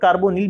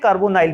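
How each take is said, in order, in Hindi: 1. आखिरी अक्षर में छोटी 'nil' ध्वनि है। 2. आखिरी अक्षर में लंबी 'nile' ध्वनि है। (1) "ऐसा उच्चारण के तौर पर कार्बोनिल भी पढ़ सकते हैं" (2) "कार्बोनाइल भी पढ़ सकते हैं"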